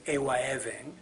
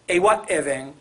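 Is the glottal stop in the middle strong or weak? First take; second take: weak; strong. First: The glottal stop is weakened and softer. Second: The glottal stop is full and clear. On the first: This is a later, more efficient form. "the glottal stop probably would become weaker" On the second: This is the original form of the word. "is the original"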